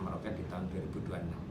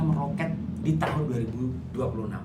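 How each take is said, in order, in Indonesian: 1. Terdengar datar, dengan sedikit gerakan nada. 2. Terdengar yakin, dengan nada naik turun yang hidup. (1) "Lain kan? Gimana mau percaya?" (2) "Ada saatnya ketika kita meyakinkan"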